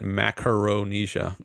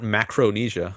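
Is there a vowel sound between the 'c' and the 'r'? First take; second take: yes; no. First: An extra vowel is heard between 'c' and 'r'. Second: No vowel is heard between 'c' and 'r'. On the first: The speaker calls it right. "but Macaronesia" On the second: The speaker calls it wrong. "not Macronesia"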